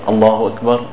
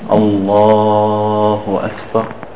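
First: The phrase is said quickly and clipped. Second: The phrase is said slowly and drawn out. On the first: The words finish before the hand movement does. The speaker calls it wrong. "he doesn't say it so fast" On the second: The words last as long as the hand movement. The speaker calls it right. "He can say like this"

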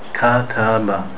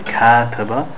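First: Each vowel is held exactly one equal beat. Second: The vowels are not all held one equal beat. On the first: The speaker calls it right. "say kataba. Each letter has one haraka" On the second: The speaker calls it wrong. "We don't want to say kataba"

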